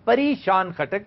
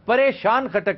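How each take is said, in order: First: The name begins with a 'pa-ree' sound. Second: The name begins with a 'pa-ray' sound. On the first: It comes from the word for fairy. The speaker calls it right. "ये परी से है कि परियों की शान वाला" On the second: It sounds like the ordinary word for troubled. The speaker calls it wrong. "परेशान खटक नहीं"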